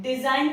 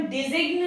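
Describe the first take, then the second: First: डिजाइन with a silent g, said like design; teacher giving the correct डिजाइन, g left out; right pronunciation. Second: डिजिग्न with the g sounded before the n; teacher sounding out the mistaken डिजिग्न, g spoken; wrong pronunciation. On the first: Teacher to students, giving the correct silent-g डिजाइन. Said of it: "डिजाइन पढ़ते हैं". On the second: Teacher to students, showing the wrong way: g sounded in डिजिग्न. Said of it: "इसे हम डिजिग्न नहीं पढ़ते हैं". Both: Shown as a demonstration.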